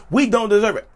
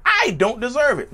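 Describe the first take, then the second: First: Said in the usual way. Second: High emphatic crack on "I". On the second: Real, not acted. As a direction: voice jumps up and breaks in protest. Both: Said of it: "My voice cracked".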